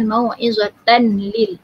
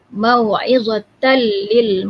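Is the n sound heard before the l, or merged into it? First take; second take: heard; merged. First: The n sound is heard before the l. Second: The n merges into the l without nasal hum. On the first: The speaker calls it wrong. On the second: The speaker calls it right.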